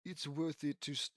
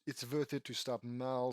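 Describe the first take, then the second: First: Said in the usual way. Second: Put-on light Russian accent, W said as V; hint of a Russian accent. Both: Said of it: "Russian accent?".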